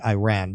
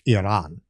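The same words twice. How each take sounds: First: It is said the American way. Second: It is said the native Persian way.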